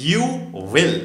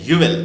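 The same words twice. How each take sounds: First: Said in the usual way. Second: "you will" run together as "you'll", loud; short form of "you will". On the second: Shown as a demonstration. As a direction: contract "you will" into one beat, you'll. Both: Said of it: "ওটা short form হচ্ছে".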